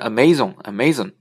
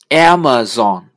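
First: The stress is on a later syllable. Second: The stress is on the first syllable. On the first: The speaker calls it wrong. "我们原来经常发生Amazon，其实是不对的" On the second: The speaker calls it right. "它的重音在前面的A，第一个字母"

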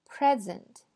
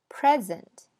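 Both takes have the same delivery.

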